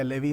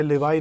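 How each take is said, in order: First: लेवी pronounced "le-vee"; accepted pronunciation of levy. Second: लेवाई pronounced "le-vai"; alternative pronunciation of levy. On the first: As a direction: say लेवी with a long "ee" ending. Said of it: "आप लोग लेवी बोल सकते हैं". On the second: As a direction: say लेवाई with an "eye" sound after the v. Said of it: "अलग-अलग pronunciation है". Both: Shown as a demonstration.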